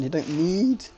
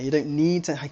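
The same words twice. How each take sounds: First: Voice crack. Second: Said in the usual way. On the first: Real, not acted. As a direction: voice cracks upward mid-phrase. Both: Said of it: "sorry, that was a very voice crack here".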